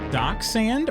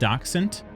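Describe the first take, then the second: First: The word ends without a t sound. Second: The word ends with a t sound.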